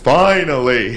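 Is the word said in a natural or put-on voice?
put-on. It is said in a put-on wrestler's voice.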